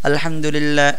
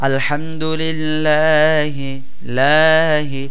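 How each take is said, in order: First: The vowel in 'lah' is kept short. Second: The vowel in 'lah' is drawn out long. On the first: "এভাবে বলতে পারতাম আলহামদুলিল্লাহ ... টান না দিয়ে" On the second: "এখানে আমি আলহামদুলিল্লাহি লাতে একটু টান দিলাম"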